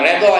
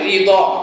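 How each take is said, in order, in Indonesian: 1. Vokal pertama adalah bunyi 'e'. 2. Vokal pertama adalah bunyi 'i'. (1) "Bukan redha ya"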